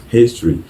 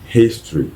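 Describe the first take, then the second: Both takes have the same delivery.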